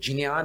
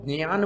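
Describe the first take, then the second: First: Pronounced the way Sanskrit reciters say it. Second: Pronounced the way Marathi speakers say it. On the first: "इसका शुद्ध उच्चारण ज और ञ से मिलकर" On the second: "जो मराठी भाषी है वो ज्ञान बोलते हैं"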